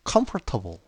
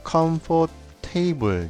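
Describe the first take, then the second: First: The ending is said as a short reduced syllable. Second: The ending is said as a full word 'table'. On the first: The speaker calls it right. "테이블이 아니고 table 이렇게 발음이 됩니다" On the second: The speaker calls it wrong. "우리 맘대로 comfort table 이렇게 읽는 경우가 있습니다"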